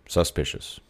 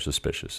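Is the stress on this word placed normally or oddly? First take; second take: oddly; normally. First: The stress falls on an unusual syllable. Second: The stress falls on the usual syllable. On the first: The speaker calls it wrong. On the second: The speaker calls it right.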